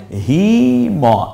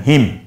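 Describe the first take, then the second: First: হি ম said as two slow separate syllables with a gap; split syllables. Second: হিম said as one smooth joined syllable. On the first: Teacher showing learners the split reading to avoid. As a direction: break হি and ম apart, the wrong way. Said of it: "এভাবে না বলে আপনি একসাথে বলে ফেলেন". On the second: Teacher showing learners the correct joined reading. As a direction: run হিম together in one go. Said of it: "একসাথে বলে ফেলেন". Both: Shown as a demonstration.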